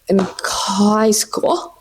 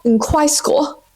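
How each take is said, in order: First: Slow, stretched in high school; a slow drawn in high school. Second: In high school lifted higher; a raised in high school. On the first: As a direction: drag out in high school dreamily. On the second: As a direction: pitch in high school up brightly. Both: Shown as a demonstration.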